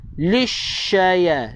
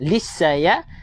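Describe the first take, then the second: First: It has an sh sound. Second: It has a plain s sound. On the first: The speaker calls it right. "ni huruf shin" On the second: The speaker calls it wrong. "dia dah baca dengan huruf sin"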